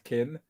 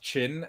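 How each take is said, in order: First: The word begins with a 'k' sound. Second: The word begins with a 'ch' sound. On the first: The speaker calls it wrong. "and not Kin" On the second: The speaker calls it right. "the Chinese deck is called Chin"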